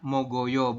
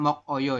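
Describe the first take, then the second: First: The final consonant links into the next syllable. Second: The final consonant stays separate before a break. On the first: The speaker calls it right. "dibacanya adalah Mogoyo" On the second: The speaker calls it wrong. "bukan Mok Oyo ya ... salah ini"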